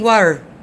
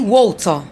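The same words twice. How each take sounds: First: American accent, with a soft T sound. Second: British accent, with no R sound at the end. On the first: "The Americans ... don't press on letter T" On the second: "the British people don't stress on letter R"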